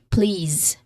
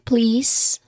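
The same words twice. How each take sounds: First: The final consonant is a buzzing z sound. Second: The final consonant is a hissing s sound. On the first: The speaker calls it right. "we usually say please with a buzzing sound" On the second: The speaker calls it wrong. "instead of saying please, the hissing sound"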